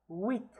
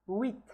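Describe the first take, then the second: The two takes are said the same way.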